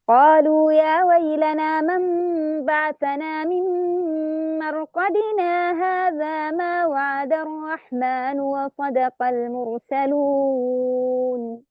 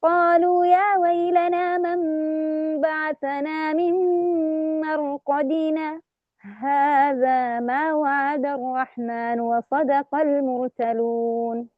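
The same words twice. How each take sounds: First: Slow recitation, مرقدنا flowing into هذا; Shu'ba's reading; recited without sakt. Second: Slow recitation with a short breathless stop after مرقدنا; Hafs's reading with sakt; recited with sakt. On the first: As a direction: recite slowly, no stop after مرقدنا. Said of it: "بدون سكت". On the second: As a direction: pause briefly on مرقدنا then هذا. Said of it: "الإمام حفص يقرأ بالسكت". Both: Shown as a demonstration.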